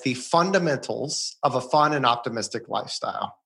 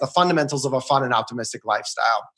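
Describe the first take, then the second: First: The phrase is delivered more slowly. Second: The phrase is rattled off quickly. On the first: It sounds profound and meaningful. The speaker calls it right. "Say it slower because it's really profound" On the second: It sounds routine, as if said many times. The speaker calls it wrong. "as you're rattling it off like you said it 100 times"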